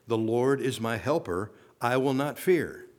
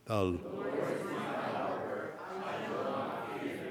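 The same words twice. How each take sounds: First: Said in the usual way. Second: Soft, slow distant group murmur; a weak crowd response from far off; half-hearted congregation reply; faint congregation murmur. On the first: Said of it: "let me hear you say that". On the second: Real, not acted. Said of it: "say it with some conviction".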